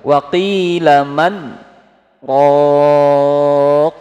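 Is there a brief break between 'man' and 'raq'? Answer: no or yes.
yes. A brief stop separates man and raq. It is said: who is the one who heals? The speaker calls it right.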